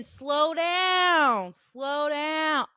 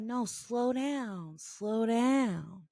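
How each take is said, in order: First: Higher, louder mock yell, vowels drawn out; long, stretched-out call, easing on the repeat; retold yell. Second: Slow, drawn-out mock command; retold order, dragged out without shouting; insistent retold order. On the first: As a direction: imitate a man hollering after someone. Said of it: "He yells again". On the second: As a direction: imitate a man insisting, stretching each word. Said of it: "And he's like".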